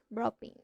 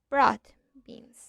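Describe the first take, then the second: First: The d changes into a b sound. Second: The d is pronounced clearly as d. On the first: The speaker calls it right. "we say" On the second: The speaker calls it wrong. "Instead of"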